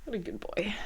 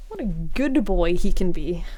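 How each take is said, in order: First: Soft cooing. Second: Said in the usual way. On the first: Real, not acted. Cooing at pet behind her.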